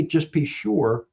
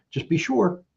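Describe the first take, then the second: First: Slow, deliberate "Just be sure," with an air gap; slow with a pause. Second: Said in the usual way. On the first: Shown as a demonstration. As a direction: drag out "Just be sure," and let it hang. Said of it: "I pause". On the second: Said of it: "I do two things. I pause".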